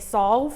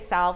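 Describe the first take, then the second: First: It sounds like the word solve. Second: It sounds like the word salve. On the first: This is how people from California say the name. "they say solve" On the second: This is how the speaker says the name. "they don't say salve"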